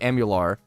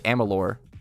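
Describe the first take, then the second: First: The name ends with a 'lar' sound. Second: The name ends with a 'lur' sound. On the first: The speaker calls it wrong. "I always say Am- Amular" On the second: The speaker calls it right. "but I think it's Amalur"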